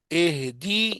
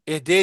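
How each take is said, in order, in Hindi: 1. d के बाद का स्वर i है। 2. d के बाद का स्वर e है। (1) "दाल जेर दी" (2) "नहीं पढ़ना"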